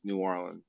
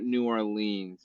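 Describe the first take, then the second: First: The name is said the local resident way. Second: The name is said the outsider media way. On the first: This is how locals say it. The speaker calls it right. "down here it's uh it's New Orleans" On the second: This is how outsiders say it. The speaker calls it wrong. "the media kind of messes it up, but it's not New Orleans"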